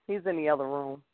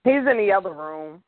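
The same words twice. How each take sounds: First: Softer, trailing repeat; said again under the breath; quiet repeat. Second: Said in the usual way. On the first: Real, not acted.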